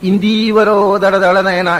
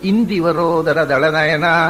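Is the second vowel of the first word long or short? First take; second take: long; short. First: The second vowel is held long. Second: The second vowel is kept short. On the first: The line gets one extra beat. The speaker calls it wrong. "ಹ್ರಸ್ವ ಇರಬೇಕಾದ್ರೆ ದೀರ್ಘ" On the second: The line keeps its proper beat count. The speaker calls it right. "ಆಚಾರ್ಯರ ಪಾಠದಲ್ಲಿರೋದು"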